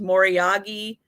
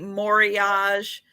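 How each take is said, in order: First: The word is said the Japanese way. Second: The word is said in a non-Japanese way. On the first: "it's more typically pronounced Moriagi because it's more ja a Japanese, um, way of pronouncing it" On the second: "you'll see some people say Mori-Age"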